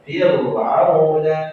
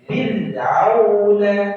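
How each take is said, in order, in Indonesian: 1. Bunyi r diucapkan tebal dan berat. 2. Bunyi r diucapkan tipis dan ringan. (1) "biasa atau tebal, keliru" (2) "tipis ya?"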